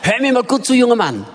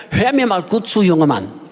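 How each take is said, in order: First: "junger Mann" hit firmly, held up in pitch; firm telling-off with weight on "junger Mann"; stress on junger Mann. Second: "junger Mann" dropped low and firm; stern self-address, falling heavily on "junger Mann"; stress on junger Mann. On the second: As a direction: press down on "junger Mann" in a lower pitch. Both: Retold or imitated. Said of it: "Die Betonung lag auf junger Mann".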